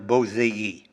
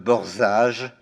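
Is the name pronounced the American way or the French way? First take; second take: American; French. First: The name is said with an American pronunciation. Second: The name is said with a French pronunciation. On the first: The speaker calls it right. "alors qu'il faut dire Bozei" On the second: The speaker calls it wrong. "On parle en français de Borzage"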